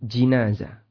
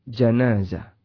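First: The first vowel is an 'i' sound. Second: The first vowel is an 'a' sound. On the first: "Bisa dibaca dengan kasrah jim" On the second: "Bisa juga dibaca dengan fathah jim"

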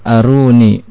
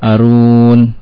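First: The word ends with an i vowel. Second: The word ends on the n consonant. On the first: The speaker calls it right. "Apabila diwakafkan aruni" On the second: The speaker calls it wrong. "tidak boleh arun"

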